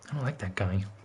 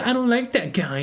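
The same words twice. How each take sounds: First: It is said in the speaker's own deep voice. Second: It is said in a higher, less deep voice. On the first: Other people's words are imagined in the speaker's voice. "in my voice" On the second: Other people are saying it in their own voices. "they don't have as deep as voice as I do"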